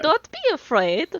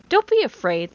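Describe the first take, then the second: First: It is said in a playful European accent. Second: It is said in a plain, threatening voice. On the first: The speaker calls it right. "that's what you're supposed to do" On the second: The speaker calls it wrong. "you're not saying it in a playful European accent. That's uh, definitely threatening"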